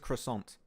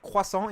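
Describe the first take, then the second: First: The word is said with an English pronunciation. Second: The word is said with a French pronunciation. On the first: "if you want to say in English, the proper way is croissant" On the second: "croissant in French"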